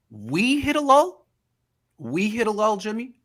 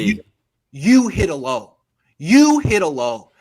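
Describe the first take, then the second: First: Incredulous mocking echo. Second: YOU punched, louder and slow; stress on YOU. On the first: Real, not acted. Mocking the quarterback's words. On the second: Shown as a demonstration. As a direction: hit the word You hard, slowly. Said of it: "We say we".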